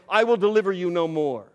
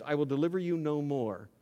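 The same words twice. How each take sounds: First: Louder, driving the words home; loud emphatic declaration. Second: Said in the usual way. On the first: Acted. Preacher thundering God's warning to the congregation, loud. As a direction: proclaim it like a thunderous verdict.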